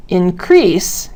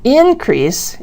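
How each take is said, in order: First: "increase" as the verb, in-CREASE; second-syllable stress. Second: "Increase" as the noun, IN-crease; first-syllable stress. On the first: Teacher showing stress changes grammar, second-syllable "increase". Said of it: "is a verb". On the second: Teacher showing stress changes grammar, first-syllable "Increase". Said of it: "Word stress sometimes also affects". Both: Shown as a demonstration.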